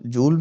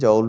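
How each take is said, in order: First: The vowel is a long 'oo' sound. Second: The vowel is an 'ow' diphthong. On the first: "जूल भी बोलते हैं" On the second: "जाउल भी बोलते हैं"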